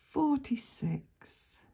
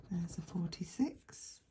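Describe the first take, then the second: First: Slow, drawn-out number call; bingo caller. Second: Said in the usual way. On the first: Acted.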